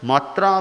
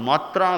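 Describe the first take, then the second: No difference in how they are said.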